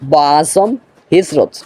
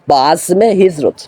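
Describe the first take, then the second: First: The word azm runs straight into hijrat. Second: An 'e' sound links azm to hijrat. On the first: The speaker calls it wrong. "বা আজম হবে না, দুঃখিত আমি" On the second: The speaker calls it right. "এখানে উচ্চারণ হবে বা আজমে হিজরত"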